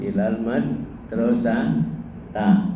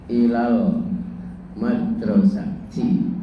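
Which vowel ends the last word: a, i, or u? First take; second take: a; i. First: The last word ends in an a vowel. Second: The last word ends in an i vowel. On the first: The speaker calls it wrong. "tidak mungkin ilal madrasata" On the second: The speaker calls it right.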